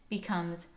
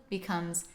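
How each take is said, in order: The two takes are said the same way.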